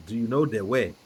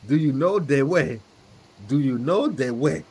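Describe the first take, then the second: First: Said in the usual way. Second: Hammed-up meme character voice; squeaky cartoon meme voice; Ugandan Knuckles voice. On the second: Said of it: "Shout out to, uh, Ugandan Knuckles".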